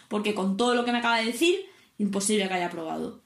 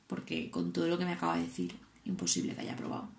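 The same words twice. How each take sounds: First: Said in the usual way. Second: Hushed dread. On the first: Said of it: "He vuelto a suspender". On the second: Retold or imitated. Asking instructor if she failed.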